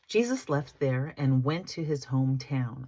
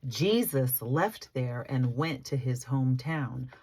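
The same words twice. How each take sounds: First: The sentence is read too quickly. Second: The sentence is read at a slower pace. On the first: The speaker calls it wrong. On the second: The speaker calls it right.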